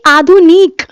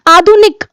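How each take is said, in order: First: The last syllable has a long, drawn-out vowel. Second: The last syllable has a short, quick vowel. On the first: The speaker calls it wrong. "ना कि ... ऐसे नहीं बोलते" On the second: The speaker calls it right. "निक, जल्दी बोला जाता है, छोटी मात्रा जल्दी"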